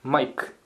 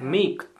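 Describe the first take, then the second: First: It has an Australian 'eye' vowel sound. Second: It has a standard 'ay' vowel sound.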